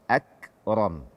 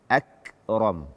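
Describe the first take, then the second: Both takes have the same delivery.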